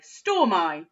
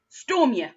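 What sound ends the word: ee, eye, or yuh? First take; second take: eye; yuh. First: The word ends with an 'eye' sound. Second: The word ends with a 'yuh' sound. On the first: "with the I sound at the end" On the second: "first with the y"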